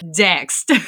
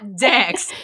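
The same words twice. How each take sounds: First: The final T sound is clearly pronounced. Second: The final T sound is dropped. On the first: The speaker calls it right. "Like text, but with a D" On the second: The speaker calls it wrong. "not Dext"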